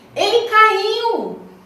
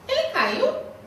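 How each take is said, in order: First: It is said with surprise and astonishment. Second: It is said as a question.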